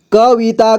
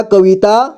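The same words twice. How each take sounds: First: कविता as क-वि-ता; syllable by syllable. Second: Said in the usual way. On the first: Shown as a demonstration. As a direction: sound out कविता in three parts. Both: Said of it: "एक ही बार में पढ़ेंगे".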